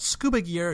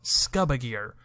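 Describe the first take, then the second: First: The u is the usual 'oo' sound. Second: The u sounds like 'uh' in underwater. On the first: "you can't call it" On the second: "you have to call it scuba gear, because it's underwater"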